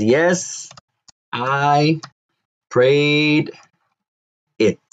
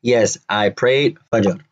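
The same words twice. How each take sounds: First: Yes, I, prayed, it each set apart by pauses, a bit higher; eloquent reply with pauses. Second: Said in the usual way. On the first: Shown as a demonstration. Teacher showing the wife's eloquent answer with pauses. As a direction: spell out the eloquent version word by word. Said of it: "Now to say it with eloquence". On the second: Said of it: "That's the everyday one-on-one English".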